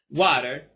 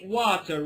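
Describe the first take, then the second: First: The middle t sounds like a soft D. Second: The middle t is a crisp T sound. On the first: The speaker calls it right. "So here it's water" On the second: The speaker calls it wrong. "I don't say water. Water is somehow academic way of speaking English"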